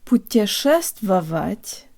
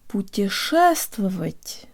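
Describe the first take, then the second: First: All syllables get fairly equal emphasis. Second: Only the stressed syllable is strong; others are reduced. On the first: The speaker calls it wrong. "It's not" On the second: The speaker calls it right. "but rather ... de-emphasizing every syllable except the stressed one"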